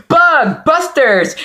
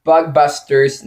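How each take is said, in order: First: High, slow, drawn-out hype call; excited announcer shout. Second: Said in the usual way. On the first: Shown as a demonstration. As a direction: belt it like a show title. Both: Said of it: "or as I like to say".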